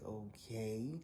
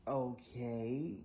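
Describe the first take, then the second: First: A pointed okay, trailing up; sarcastic okay. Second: Drawn-out, loud, rising okay; a pointed okay, half question; sarcastic okay. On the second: Rider answering the stubborn driver, pointed rising okay. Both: Retold or imitated. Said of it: "I did one of those".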